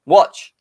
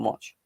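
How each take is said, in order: First: Louder, higher call; loud taunt. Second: Softer, under the breath; quiet watch. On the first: Taunting rival fans in chat about Werner, loud call. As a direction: shout it out to the rivals. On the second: Taunting rival fans in chat, quiet teaser. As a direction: plant it quietly before the big one. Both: Acted.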